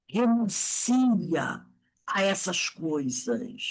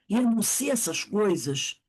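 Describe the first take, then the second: First: Very slow, grave command; slow preacher's exhortation; slow solemn urging. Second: Said in the usual way. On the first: Shown as a demonstration. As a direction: drag it out as a solemn appeal.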